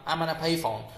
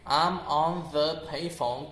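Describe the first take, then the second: First: The word before payphone is reduced to a weak vowel. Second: The word before payphone is said fully.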